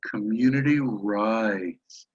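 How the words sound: It is said in a warm, loving tone. The speaker calls it right. "with a, a loving, liberal tone"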